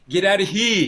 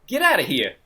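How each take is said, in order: First: Loud, high English accent attempting mobster talk; proper Englishman badly faking a wise guy accent; English accent fumbling wise guy. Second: Put-on brash American wise guy accent, raised pitch. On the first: Co-host imitating the English actor's botched mobster line, English accent. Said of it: "But with his English accent". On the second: Co-host quoting the line a film character aims for, wise guy accent. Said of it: "put on a wise guy accent".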